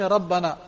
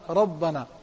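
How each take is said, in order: First: The r is said light and thin. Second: The r is said heavy, with a full mouth. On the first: The speaker calls it wrong. "You don't say Rabbana" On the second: The speaker calls it right. "the ra is full mouth"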